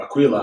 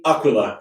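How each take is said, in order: First: Aquila with the stress on "qui"; alternative pronunciation. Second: Aquila said the Italian way; Italian pronunciation. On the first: Host offers another reading of the god's name, alternative pronunciation. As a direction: say Aquila as a-KWEE-la. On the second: Host names the god the Italian way, Italian pronunciation. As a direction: stress the opening A of Aquila. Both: Shown as a demonstration. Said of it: "I don't know how you pronounce it".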